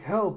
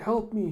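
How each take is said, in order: First: High, loud mock plea; acted cry for help. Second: High, loud mock wail; acted plea for help. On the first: Mugging victim calls out in the alley, mock cry for help. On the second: Mugging victim begs passers-by, higher mock cry for help. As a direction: call out like a cartoon victim.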